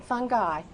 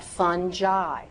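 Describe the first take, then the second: First: "fungi" as "fun-guy", hard G. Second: "fungi" as "fun-jai", soft G. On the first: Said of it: "not fungi". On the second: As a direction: say "fungi" with a J sound. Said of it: "I want you to pronounce that". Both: Shown as a demonstration.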